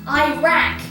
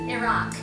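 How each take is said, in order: First: It is said in an American-style pronunciation. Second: It is said in the native-style pronunciation. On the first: The speaker calls it wrong. "commonly pronounced Iraq" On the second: The speaker calls it right. "instead of Iraq"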